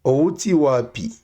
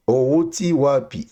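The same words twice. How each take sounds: The two takes are said the same way.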